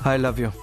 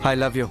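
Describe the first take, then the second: First: It is said weakly and listlessly. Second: It is said harshly and aggressively. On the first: It sounds lifeless. "మరీ నీరసంగా చెప్తున్నారు sir" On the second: It sounds like a threat. "అయ్య బాబోయ్, కొడతారా ఏంటి?"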